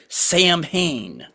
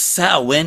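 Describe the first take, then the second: First: It sounds like the two names Sam Hain. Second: It does not sound like Sam Hain. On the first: It sounds like a person's first and last name. The speaker calls it wrong. "they pronounced it Sam Hain, like it's a fucking person" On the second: It names a celebration, not a person. The speaker calls it right. "No, no, no. It's Samhain"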